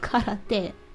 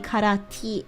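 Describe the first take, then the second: First: The last syllable is pronounced 'te'. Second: The last syllable is pronounced 'ti'. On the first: This is the standard Japanese way of saying it. "in like regular Japanese it'd be like, oh, it's karate" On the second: This is the Okinawan way of saying it. "in Okinawan, I think te is actually pronounced ti"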